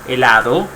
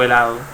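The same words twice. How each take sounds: First: The d sound is fully pronounced. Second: The d sound is weakened or dropped. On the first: "cuando decimos helado" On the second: "muchas personas lo pronuncian de otra manera"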